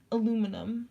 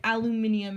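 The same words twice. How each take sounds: First: Aluminum as "uh-LOO-mi-num"; American aluminum. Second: Aluminium as "al-yoo-MIN-ee-um"; British aluminium. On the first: Comparing British and American words, American aluminum. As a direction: stress LOO in aluminum, four syllables. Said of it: "we say aluminum". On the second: Comparing British and American words, British aluminium. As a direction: stress MIN in aluminium, with an extra ee. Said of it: "Like, we say aluminum". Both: Shown as a demonstration.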